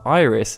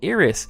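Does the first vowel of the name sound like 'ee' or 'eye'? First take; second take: eye; ee. First: The first vowel sounds like 'eye'. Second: The first vowel sounds like 'ee'. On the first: This is the usual English reading of the name. "instead of calling her Iris" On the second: This is the Japanese-style reading used in the game. "in Japan they pronounced the singular vowel I as E"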